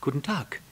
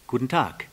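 First: Higher-pitched courteous reply; lightly voiced polite little prince. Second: Lightly voiced fox's hello; brisk greeting with falling end; a hint of a storybook fox. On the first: A narrator's reading. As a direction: answer the greeting politely. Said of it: "antwortete höflich der kleine Prinz".

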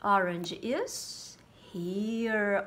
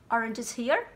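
First: "Orange is here." said slowly and settled, falling on "here"; slow "Orange is here." with a firm fall; confirming answer. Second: "Orange is here?" as a questioning guess rising on "here"; "here" rising, a mock-wrong question; wrong guess asked. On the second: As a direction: ask "Orange is here?" as if unsure, lifting "here". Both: Shown as a demonstration.

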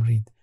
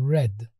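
First: "read" with a long ee, as in reed; read pronounced like reed. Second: "Read" with a short e, as in red; read pronounced like red. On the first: Teacher showing learners the form not meant, "read" pronounced reed. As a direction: say "read" to rhyme with need. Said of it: "نگفتم read". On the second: Teacher showing learners the past form, "Read" pronounced red. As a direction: say "Read" to rhyme with bed. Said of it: "مثل رنگ قرمز". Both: Shown as a demonstration.

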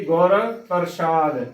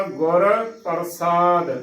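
First: Hushing sh sound in the middle of ਪ੍ਰਸ਼ਾਦ. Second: ਪ੍ਰਸਾਦ with a clean dental s sound; plain S in ਪ੍ਰਸਾਦ. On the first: Teacher showing a common error, ਪ੍ਰਸ਼ਾਦ with sh. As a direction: say ਪ੍ਰਸ਼ਾਦ with sh instead of s. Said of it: "ਇਸ ਦਾ ਗਲਤ ਉਚਾਰਨ". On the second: Teacher modelling correct reading, ਪ੍ਰਸਾਦ with plain s. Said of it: "ਇਸ ਦਾ ਸਹੀ ਉਚਾਰਨ". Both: Shown as a demonstration.

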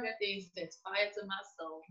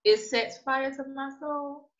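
First: Quiet exasperation. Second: "sets fire to my soul" slow and higher; emphatic repetition. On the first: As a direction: say it under your strong feeling, softly. Venting about stereotyped image of Mexicans. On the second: Repeats it for emphasis, venting. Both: Real, not acted.

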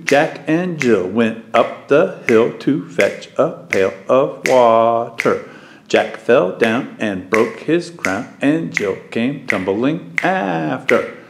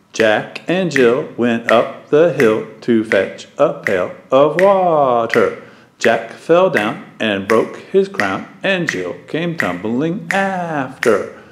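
First: Chanted, march the words in twos, strong-weak; chanted, nursery rhyme recited in duple meter; duple rhythm chant. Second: Chanted, lilt Jack and Jill in a swinging three-beat pulse; chanted, skip through the words strong-weak-weak; chanted, nursery rhyme recited in triple meter; triple rhythm chant. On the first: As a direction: chant Jack and Jill in a steady two-beat pulse. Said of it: "a couple different ways we could say it". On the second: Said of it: "Or one, two, three". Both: Shown as a demonstration.

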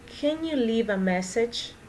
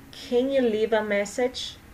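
Both takes have the same delivery.

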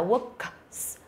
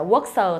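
First: Works with k then a hissed s; correct works ending. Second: Works with the final s as a voiced syllable "sờ"; wrong ending on works. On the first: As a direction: separate the k and voiceless s in works. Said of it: "mà là works". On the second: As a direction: say works as "work-sờ". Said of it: "không phải là works không thôi". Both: Shown as a demonstration.

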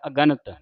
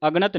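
First: ਅਗਣਤ as a-ga-nat, every vowel sounded; correct reading. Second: ਅਗਣਤ squeezed, ag-nat; wrong reading. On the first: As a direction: give ਅਗਣਤ its vowel after g. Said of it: "ਧਿਆਨ ਰੱਖਣਾ". (ਅਗਣਤ, ਅ-ਗਣਤ ਉਚਾਰਨ) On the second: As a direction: swallow the vowel after g in ਅਗਣਤ. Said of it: "ਇਹਨੂੰ ਅਗਣਤ ਨਹੀਂ ਪੜ੍ਹਨਾ". (ਅਗਣਤ, ਅਗ-ਣਤ ਜੋੜ ਕੇ) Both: Shown as a demonstration.

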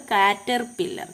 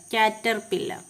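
The two takes are said the same way.

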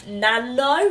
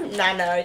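First: Nano? with a rising, unsure tune; questioning Nano. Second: Nano said NAN-oh, firm and falling; her way of saying Nano. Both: Shown as a demonstration. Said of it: "that's how I say it".

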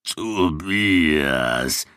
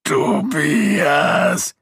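First: Gasped name. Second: A high, loud pained groan of the name.

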